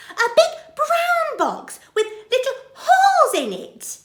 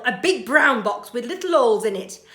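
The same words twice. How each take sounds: First: Very high, loud, half laughing half crying; tearful astonishment. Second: Matter-of-fact burglar. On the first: Betty realises the baby is hers, overwhelmed. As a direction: near tears with joy. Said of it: "says Burglar Betty". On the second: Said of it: "said Burglar Bill". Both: Acted.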